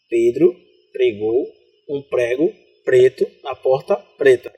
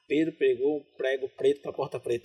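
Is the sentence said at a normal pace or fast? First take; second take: normal; fast. First: It is said at a normal pace. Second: Pedro is stressed, and the rest is fast.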